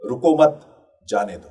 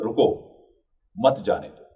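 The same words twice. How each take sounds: First: There is a pause right after मत. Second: There is a pause right after रुको. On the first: Do not stop them, let them go. "तो इसका मतलब बिल्कुल बदल जाता है।" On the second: Stop, and do not let them go. "इसका एक अर्थ तो ये हुआ।"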